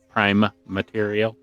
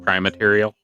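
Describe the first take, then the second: First: The two words are kept clearly separate. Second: The two words are run quickly together. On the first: The speaker calls it right. "and it's prime material" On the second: The speaker calls it wrong. "when people say that too quickly"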